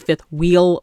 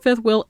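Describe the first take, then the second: First: Wheel is said with a long 'ee' vowel. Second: Wheel is said with a short 'i' vowel. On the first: It is the usual way to say it. "it's called a fifth wheel" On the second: It mimics how certain people say it. "I just love that they say will"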